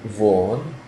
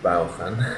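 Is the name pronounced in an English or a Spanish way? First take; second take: English; Spanish. First: The name is pronounced the English way. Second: The name is pronounced the Spanish way. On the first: The speaker calls it right. "Note the pronunciation, you Spanish people" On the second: The speaker calls it wrong.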